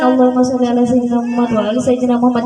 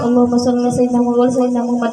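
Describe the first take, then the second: First: Lightly chanted Allahumma sholli, quick and lilting; easy sung prayer on the go; sung sholawat. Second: Rattled off very fast, Allahumma run together; quick chanted prayer during chores; rushed sholawat. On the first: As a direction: hum the sholawat casually while walking. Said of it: "sambil jalan". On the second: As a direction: mumble it quickly while sweeping. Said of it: "lagi nyapu sampah". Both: Shown as a demonstration.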